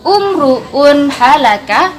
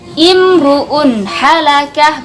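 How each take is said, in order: First: The first word begins with an u vowel. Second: The first word begins with an i vowel. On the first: The speaker calls it wrong. "bukan umruun halaka" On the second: The speaker calls it right. "tapi imruun halakah"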